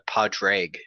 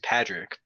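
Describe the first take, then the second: First: The name is said with a Gaelic pronunciation. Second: The name is said with an English pronunciation. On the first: This is the original form of the name. "the actual like Gaelic pronunciation" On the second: This is how the speaker says their own name. "It is Patrick"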